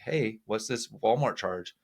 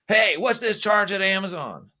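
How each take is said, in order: First: It is said in a neutral tone. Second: It is said in a harsh tone.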